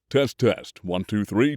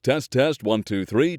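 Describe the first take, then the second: First: The voice is very low, in bass range. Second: The voice is somewhat higher, in baritone range. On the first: "Bass voices" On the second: "Baritone voices"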